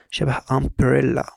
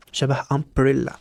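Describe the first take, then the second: First: "umbrella" said slowly with a short "آه" opening; teacher modelling "umbrella" slowly; slow example word. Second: "umbrella" said again slowly, opening on "آه"; teacher repeating "umbrella" for the class. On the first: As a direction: stretch out "umbrella" for the learner. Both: Shown as a demonstration. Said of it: "ال U ما بينطقش يو".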